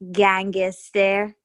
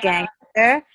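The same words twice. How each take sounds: First: An extra vowel is inserted between consonants. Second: No extra vowel is inserted between consonants. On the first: "They put, like, vowels between letters" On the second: "instead of"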